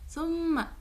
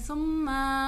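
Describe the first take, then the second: First: The final vowel is kept short. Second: The final vowel is drawn out long. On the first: The speaker calls it right. "इसको खींच के नहीं पढ़ना" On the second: The speaker calls it wrong. "हम इसको लंबा नहीं कहेंगे सुम्मा नहीं"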